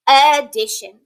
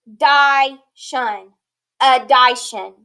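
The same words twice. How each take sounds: First: "Addition" with a short I, "a-DISH-un"; correct short I. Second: "Addition" with a long I, like "a-DIE-shun"; wrong long-I reading. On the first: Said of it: "that I has to be shortened there". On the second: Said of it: "This word is not addition". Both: Shown as a demonstration.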